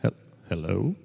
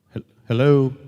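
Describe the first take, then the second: First: Said in the usual way. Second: Raised-voice hello into a phone; insistent, loud hello; louder phone hello. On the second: Real, not acted. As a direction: call out to someone not hearing.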